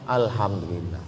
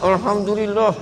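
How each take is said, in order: First: It is said openly, with relief. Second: It is said grudgingly, sounding angry.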